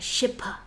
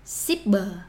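First: It is said with an English pronunciation. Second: It is said with a Vietnamese pronunciation. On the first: The speaker calls it wrong. "it's not ship or shipper" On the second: The speaker calls it right. "It's ship, shipper"

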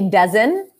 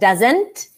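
First: The final T sound is dropped. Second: The final T sound is pronounced. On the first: The speaker calls it wrong. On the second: The speaker calls it right.

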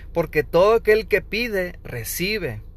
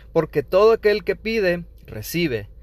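The two takes are said the same way.

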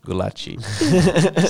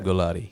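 First: The name is said with a Brazilian accent. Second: The name is said without a Brazilian accent.

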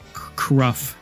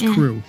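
First: The name ends in an f sound. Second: The name ends in an oo vowel. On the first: The speaker calls it wrong. "I always thought it was" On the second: The speaker calls it right. "but it's Crew"

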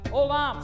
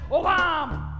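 First: The word is said plainly, without strong feeling. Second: The word is said with strong, passionate feeling.

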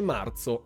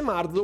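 First: The z is strong, in standard Italian. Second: The z is soft, with a Bergamo dialect flavour.

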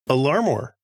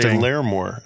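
First: The first vowel sounds like 'car'. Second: The first vowel sounds like 'air'. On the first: The speaker calls it right. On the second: The speaker calls it wrong.

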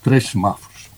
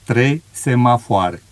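First: Some unstressed vowels are reduced or dropped. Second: Every vowel is pronounced fully and clearly. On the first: This is how a local in Braga says it. "disse 3 semáforos" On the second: This is how it is said in Romanian. "todas as vogais"

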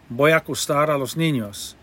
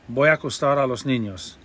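First: The words run together smoothly and naturally. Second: The same.

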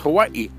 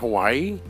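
First: A small hiccup-like catch comes before the final 'i'. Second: The word flows smoothly without a catch before 'i'. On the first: The speaker calls it right. "you kind of hiccup a little bit when you say the name" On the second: The speaker calls it wrong. "So it's not Hawaii"

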